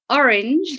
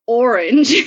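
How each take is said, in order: First: Said in the usual way. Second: "orange" said with an American twang, flat rolling r. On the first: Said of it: "I don't say orange like I would, but orange". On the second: Shown as a demonstration. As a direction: slip "orange" into a light American accent. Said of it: "I get this American twang".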